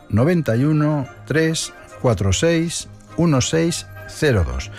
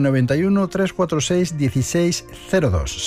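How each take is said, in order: First: The number is said slowly. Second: The number is said at a normal pace.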